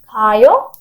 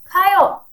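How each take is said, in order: First: It is said as a question. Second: It is said as a command. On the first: Asks whether someone is going. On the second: Tells someone to go.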